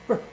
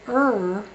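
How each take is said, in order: First: The sound is very short and clipped. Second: The sound is longer and heavier. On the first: "this one's the little gun sound" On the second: "that's the big gun sound"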